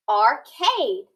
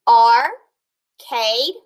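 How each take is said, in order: First: Said in the usual way. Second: Arcade drawn out slowly, rising; syllables split. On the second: Shown as a demonstration. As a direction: stretch arcade with a rise. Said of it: "split this word into syllables".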